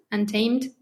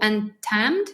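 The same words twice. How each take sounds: First: UNTAMED with a long A, "un-TAYMD"; second try at UNTAMED, as "un-TAYMED"; corrected pronunciation. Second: UNTAMED with a short flat A, "un-tammed"; French-accented pronunciation. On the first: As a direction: say UNTAMED so it rhymes with "named", tentatively. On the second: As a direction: say UNTAMED so the second syllable rhymes with "jammed". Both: Real, not acted. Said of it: "never pronounce it with my French accent".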